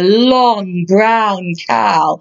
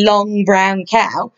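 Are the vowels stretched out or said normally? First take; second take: stretched; normal. First: The vowels are drawn out and stretched long. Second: The vowels are said at a normal length. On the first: "I'm exaggerating that to help you hear it" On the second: "But actually"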